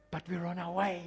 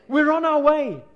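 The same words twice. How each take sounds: First: Said in the usual way. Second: High, loud, cheering shout; exuberant, raised-voice cheer; loud celebration. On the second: Real, not acted. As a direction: shout it out like a victory cry. Repeats line as a celebration.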